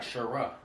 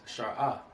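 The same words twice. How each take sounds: First: "Shara" blended as sha-RA; mispronounced Shara. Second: "Shara" split as shar-AH; correct Shara. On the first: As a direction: say "Shara" with a short first syllable running into RA. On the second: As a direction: say "Shara" with SHAR complete, then a separate AH. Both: Shown as a demonstration. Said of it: "not Shara".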